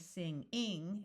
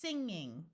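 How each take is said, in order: First: The stress is on the second syllable. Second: The stress is on the first syllable. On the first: The speaker calls it wrong. "we don't say" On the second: The speaker calls it right. "the first syllable is accented"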